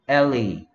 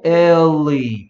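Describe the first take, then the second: First: The word is said fast. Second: The word is said slowly.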